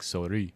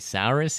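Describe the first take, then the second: First: The name is said with a French pronunciation. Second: The name is said with an English pronunciation. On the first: The speaker calls it right. "I think it's something like souris" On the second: The speaker calls it wrong. "It's not even pronounced the way I'm pronouncing it"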